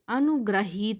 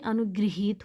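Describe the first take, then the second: First: The middle syllable is said as gra. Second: The middle syllable is said as gri. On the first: The speaker calls it wrong. "ग्रहित नहीं होता" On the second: The speaker calls it right. "इसमें री की मात्रा लगेगा"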